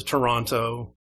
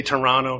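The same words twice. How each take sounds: First: Toronto with the second T sounded; spelled-out pronunciation. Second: Toronto with the second T dropped, like "Toronno"; local pronunciation. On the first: Arguing who says it right, Toronto with both Ts. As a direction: say Toronto fully, crisp T before the last O. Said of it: "versus Toronto". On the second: Arguing who says it right, Toronto as "Toronno". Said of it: "who knows how to say Toronto". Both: Shown as a demonstration.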